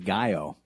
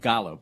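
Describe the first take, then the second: First: The double L sounds like a Y. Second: The double L sounds like an L. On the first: The speaker calls it right. "just to help you with your pronunciation" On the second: The speaker calls it wrong. "I know it looks like"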